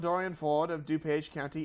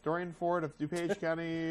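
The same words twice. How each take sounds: First: It is read in an English newsreader accent. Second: It is read in a plain American accent.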